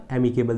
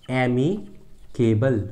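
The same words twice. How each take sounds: First: Said in the usual way. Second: एमिकेबल split as "एमी", pause, "केबल"; slow dictation of एमिकेबल with a gap mid-word; broken into parts. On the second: Shown as a demonstration. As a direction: say एमिकेबल very slowly in two separate chunks.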